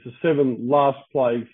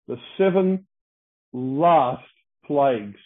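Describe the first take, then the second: First: Said in the usual way. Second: The seven, last, plagues, each word set apart by long pauses; preacher weighing each word of "the seven last plagues"; slow emphatic. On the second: Shown as a demonstration. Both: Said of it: "it's written in the emphatic sense".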